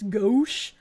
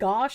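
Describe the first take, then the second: First: The vowel is an 'oh' sound, like go. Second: The vowel is an 'ah' sound, like gosh. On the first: The speaker calls it right. "The ow is pronounced o" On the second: The speaker calls it wrong. "Gauche is not gosh"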